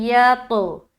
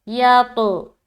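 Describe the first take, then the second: Both takes have the same delivery.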